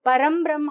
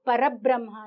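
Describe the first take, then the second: First: An m sound closes para before brahma. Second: Para runs straight into brahma without m. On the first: "ಪರಂ ಬ್ರಹ್ಮ ಅಂತಾನು ಹೇಳ್ತಾರೆ" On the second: "grammatically more appropriate"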